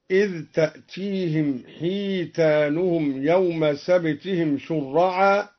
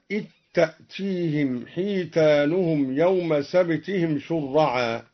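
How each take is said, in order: First: إذ with its dh sounded clearly before تأتيهم; ذال إذ مظهرة. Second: إذ merged into تأتيهم as "ittaatiihim"; ذال مدغمة في التاء. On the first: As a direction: recite إذ with a distinct dh, no merging. (إظهار ذال إذ قبل التاء) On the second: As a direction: drop the dh of إذ into the t of تأتيهم. (إدغام ذال إذ في تاء تأتيهم) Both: Shown as a demonstration. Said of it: "أدغم الدوري الذال في التاء هكذا".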